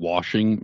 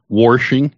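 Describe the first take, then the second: First: The word has a plain o vowel without r. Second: The word has an r sound after the first vowel. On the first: The speaker is not a real local from the region. The speaker calls it wrong. "you can't even do like an O, like washing" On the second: The speaker is a real local from the region. The speaker calls it right. "You live in like Southern New Jersey or mean, Philly"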